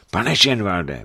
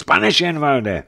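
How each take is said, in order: First: Anxious calling through a door, restrained; first worried call; frightened call. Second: High, loud, drawn-out anxious cry; urgent cry through a door; frightened call. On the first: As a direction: call his name uneasily. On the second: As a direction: call his name louder, alarmed. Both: A narrator's reading. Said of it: "za dveřím ustrašený hlas".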